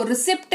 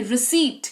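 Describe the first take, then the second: First: रिसिप्ट with short i and sounded P; wrong pronunciation. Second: रिसीट with long ee, silent P; correct pronunciation. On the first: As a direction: say रिसिप्ट, articulating P before T. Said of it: "रिसिप्ट नहीं". (गलत उच्चारण, रिसिप्ट में प बोलकर) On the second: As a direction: say रिसीट, straight from ee to T. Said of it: "रिसीट पढ़ते हैं इसको". (सही उच्चारण, रिसीट में प मौन) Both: Shown as a demonstration.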